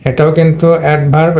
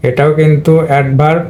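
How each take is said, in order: Both takes have the same delivery.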